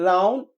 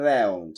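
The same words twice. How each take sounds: First: British "রাউন্ড" with AH-oo, rising; British accent. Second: Low American "রাউন্ড" with AE-oo; American accent. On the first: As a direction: lift "রাউন্ড" as RAH-oon. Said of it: "ব্রিটিশরা আও বলে". (British উচ্চারণে) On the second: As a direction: drop "রাউন্ড" as RAE-oon. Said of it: "আমেরিকানরা অ্যাও বলে". (American উচ্চারণে) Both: Shown as a demonstration.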